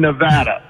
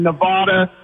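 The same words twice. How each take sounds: First: Nevada with a short flat "a" in the middle; Nevada, middle vowel as in cat; Nevada as ne-VAD-a. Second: Nevada with a broad "ah" in the middle; Nevada, middle vowel as in father; Nevada as ne-VAH-da. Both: Shown as a demonstration. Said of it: "Nobody gets angry like in Nevada and Nevada".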